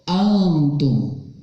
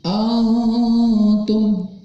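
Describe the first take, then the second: First: The nasal concealment is brief and light. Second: The nasal concealment is drawn out and exaggerated. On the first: The speaker calls it right. "tapi cukup antum" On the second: The speaker calls it wrong. "nggak jauh, nggak gini. Antum tidak"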